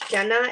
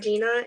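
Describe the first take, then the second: First: The name is said as Jenna. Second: The name is said as Gina. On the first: The speaker calls it right. "your name is pronounced Jenna" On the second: The speaker calls it wrong. "and not Gina"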